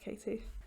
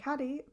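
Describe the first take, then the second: First: The name sounds like Katie, with a long vowel. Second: The name sounds like caddy, with a short vowel. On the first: The speaker calls it right. "I know it's pronounced Katie" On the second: The speaker calls it wrong. "I'm joking"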